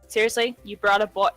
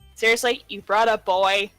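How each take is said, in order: First: It is read in a plain, normal voice. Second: It is read in a sassy tone.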